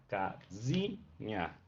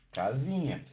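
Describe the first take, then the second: First: Casinha very slowly, syllable by syllable, low and soft; stress on ZI. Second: Said in the usual way. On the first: Shown as a demonstration. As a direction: split casinha into ca, zi, nha. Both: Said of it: "e foi pro zi".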